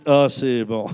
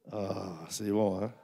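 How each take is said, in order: First: Ah, c'est bon said louder and with energy; louder call. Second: Soft, slow, savoring Ah, c'est bon; quiet savoring. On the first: (Ah, c'est bon lancé plus fort à l'assemblée) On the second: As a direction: murmur Ah, c'est bon slowly, as if tasting something. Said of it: "Dites, «Ah, c'est bon.»". (Ah, c'est bon murmuré, lent et savouré) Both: Shown as a demonstration.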